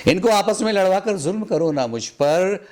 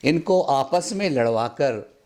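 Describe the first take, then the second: First: Repeated line sung out higher with feeling; raised recital. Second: Said in the usual way. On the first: Acted. Poet repeating his plea at a mushaira, pitched higher. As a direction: lift the whole line higher on the repeat, pleading.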